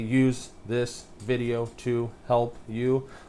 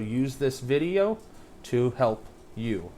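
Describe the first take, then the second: First: Each word is read separately with pauses between. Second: The words are joined smoothly into one phrase. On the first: The speaker calls it wrong. "I don't say" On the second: The speaker calls it right. "I'll try to scoop words together"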